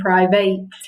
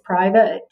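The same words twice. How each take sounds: First: The second syllable has a full vowel. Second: The second syllable has a reduced vowel. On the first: This is how the spelling suggests it is said. The speaker calls it wrong. "It seems like that should be" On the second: This is how the word is actually said. The speaker calls it right. "but it's"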